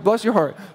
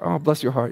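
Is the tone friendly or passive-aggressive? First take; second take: friendly; passive-aggressive. First: It is said as a friendly greeting. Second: It is said in a passive-aggressive tone.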